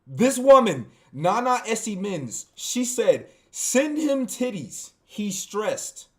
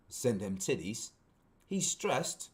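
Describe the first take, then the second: First: Said in the usual way. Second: Softer, lower British read; British accent. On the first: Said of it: "I'm gonna read this in a British accent". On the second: Shown as a demonstration. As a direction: put on a quiet British accent. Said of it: "read this in a British accent".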